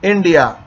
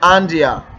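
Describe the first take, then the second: First: The first vowel sounds like 'i' in 'in'. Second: The first vowel sounds like 'e' in 'end'. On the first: The speaker calls it right. "آئی لگاتے ہیں" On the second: The speaker calls it wrong. "اگر میں یہاں پر اے لگاؤں گا ... یہ اینڈیا اینڈیا کہلائے گا ... غلط ہوگا"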